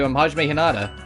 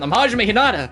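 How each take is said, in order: First: It is said softly. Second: It is said loudly.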